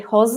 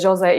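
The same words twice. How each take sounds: First: The name has its Spanish pronunciation. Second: The name has its Portuguese pronunciation. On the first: The speaker calls it wrong. "I used to say Jose" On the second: The speaker calls it right. "it's uh, Jose in uh, Portuguese"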